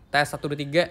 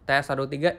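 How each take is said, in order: First: The voice has a neutral, unaltered tone balance. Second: The voice has a darker, bass-heavy tone balance. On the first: "equalizer-nya di sini yang normal" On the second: "equalizer dark"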